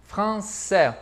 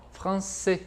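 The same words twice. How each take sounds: First: "Français" ending on an open è, Parisian style; wide-open ending. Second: "français" ending on a closed é, softer; southern, less open. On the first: Teacher shows the Parisian accent, "Français" with very open ending. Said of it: "bem aberto". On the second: Teacher shows how the south says it, "français" less open, closed ending. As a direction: close the last vowel of "français", southern French style. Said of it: "Ele fica mais dessa forma". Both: Shown as a demonstration.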